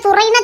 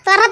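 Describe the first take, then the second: First: The word ends with a full 'ai' vowel. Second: The word ends with a short 'a' vowel. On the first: This is the written form of the word. "நாங்க என்ன துறைன்னா சொல்லுதோம்" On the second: This is how the locals actually say it. "துற துறன்னு தான் சொல்லுதோம்"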